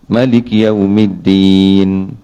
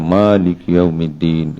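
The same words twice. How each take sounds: First: The first vowel of Maliki is short. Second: The first vowel of Maliki is long. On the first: "Dia baca pendek" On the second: "oh tu baca panjang"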